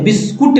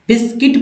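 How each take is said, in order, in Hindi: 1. आखिरी अक्षर kut जैसा सुनाई देता है। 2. आखिरी अक्षर kit जैसा सुनाई देता है। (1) "बिस्कुट नहीं" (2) "बिस्किट पढ़ते हैं"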